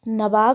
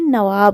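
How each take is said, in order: First: The middle consonant is a b sound. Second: The middle consonant is a v sound. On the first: The speaker calls it wrong. "नवाब नहीं" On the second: The speaker calls it right. "नवाब होता है"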